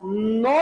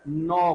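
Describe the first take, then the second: First: नौ with the tongue on the teeth, pitched up; dental N. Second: नौ with the tongue on the gum ridge; alveolar N. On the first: Teacher shows what Hindi avoids, नौ with tongue on teeth. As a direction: say नौ with a Sanskrit dental N. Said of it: "इसका उच्चारण नौ से नहीं करके नौ". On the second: Teacher shows Hindi usage, नौ with N on the gum ridge. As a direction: say नौ the Hindi way, N behind the teeth, pitched low. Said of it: "लेकिन हिंदी में हमने sir क्या कर दिया?". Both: Shown as a demonstration.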